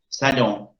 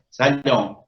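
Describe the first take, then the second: The two takes are said the same way.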